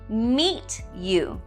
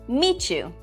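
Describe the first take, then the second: First: The sounds between the words stay separate. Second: The sounds between the words blend into one.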